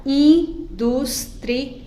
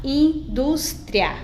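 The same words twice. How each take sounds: First: "indústria" split as in-dus-tri-a; slow "indústria" in four beats, in, dus, tri, a; four separate syllables. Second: "indústria" split as in-dus-tria; "indústria" syllable by syllable, keeping i and a together; three separate syllables. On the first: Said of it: "Eu posso separar". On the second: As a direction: say "indústria" in three beats, final tria joined. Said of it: "ou eu posso separar". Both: Shown as a demonstration.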